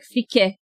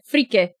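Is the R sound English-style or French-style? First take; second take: French; English. First: The R is a French-style R in the throat. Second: The R is an ordinary English-style R. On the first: "more of the French R" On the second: "Something like that"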